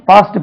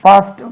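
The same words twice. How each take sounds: The two takes are said the same way.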